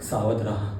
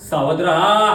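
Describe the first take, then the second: First: Low, soft caution; quiet, deep, ominous stage warning; hushed warning. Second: Projected cry rising at the end; loud dramatic alarm, climbing; called-out warning. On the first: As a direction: warn them under your voice. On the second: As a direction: call the warning across the theatre. Warning repeated as a call. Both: Acted.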